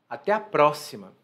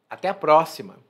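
Both takes have the same delivery.

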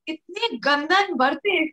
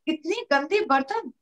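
First: The middle word ends in an 'an' sound. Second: The middle word ends in an 'e' sound. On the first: The speaker calls it wrong. "मैंने बोला" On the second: The speaker calls it right. "मुझे बोलना था"

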